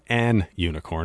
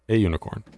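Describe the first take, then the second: First: The article is said as 'an' before unicorn. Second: The article is said as 'a' before unicorn. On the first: The speaker calls it wrong. "It's not an unicorn" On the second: The speaker calls it right. "It's a unicorn"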